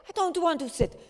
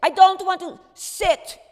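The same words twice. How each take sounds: First: Loud, higher defiant refusal. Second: Much louder and higher, furious; furious refusal. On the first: Miep refusing Otto, loud defiant higher voice. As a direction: push back hard, higher and louder. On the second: Miep shouting her refusal back at Otto, furious and high. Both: Retold or imitated.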